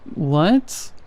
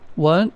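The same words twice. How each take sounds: First: It is said high-pitched and drawn out. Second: It is said short in a normal voice.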